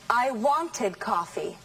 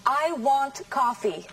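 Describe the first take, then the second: First: Slow, wanted said as WAN-ted with two syllables. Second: Slow and clear, want said as one syllable. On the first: Teacher contrasts past tense for the students. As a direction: stress the first syllable of wanted. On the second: Teacher contrasts present tense for the students. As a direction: say want with no ending. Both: Shown as a demonstration. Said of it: "Listen now to the difference between want and wanted".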